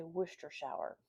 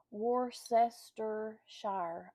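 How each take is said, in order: First: Worcestershire said quickly as woos-ter-shur; home pronunciation. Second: Worcestershire said very slowly, every syllable sounded out as wor-ces-ter-shire; careful spelling pronunciation. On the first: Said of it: "We say Worcestershire". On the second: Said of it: "how do y'all say that?". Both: Shown as a demonstration.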